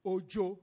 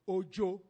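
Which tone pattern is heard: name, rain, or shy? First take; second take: shy; shy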